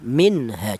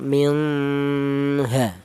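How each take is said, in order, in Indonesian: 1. Bunyi n diucapkan dengan jelas dan tegas. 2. Bunyi n kabur dan samar. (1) "jelas bahwa non matinya ini dibaca idhar" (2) "Jangan nun matinya ini dibaca samar, jangan minha, salah ya"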